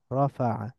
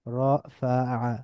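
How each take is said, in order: First: রাফাআ as one joined word, ro-fa-'a; blended together. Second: রাফাআ slowly as ro, fa, 'a; syllable by syllable. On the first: Teacher reading joined-up, রাফাআ blended into one word. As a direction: run রাফাআ together with a fall. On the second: Teacher breaking down the word, রাফাআ syllable by syllable. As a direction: split রাফাআ into three drawn-out syllables. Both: Shown as a demonstration. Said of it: "একটু মিলিয়ে মিলিয়ে পড়ব".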